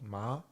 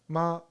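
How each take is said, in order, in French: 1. La syllabe est prononcée avec un ton montant. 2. La syllabe est prononcée avec un ton neutre léger. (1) "Second tone" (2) "it's a new neutral tone"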